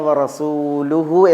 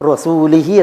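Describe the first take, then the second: First: The ending is pronounced with 'u' vowels. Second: The ending is pronounced with 'i' vowels. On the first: The messenger also disowns the polytheists. The speaker calls it right. "ഓതേണ്ടടുത്ത്" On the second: God disowns the messenger too. The speaker calls it wrong. "എന്ന് ഓതി"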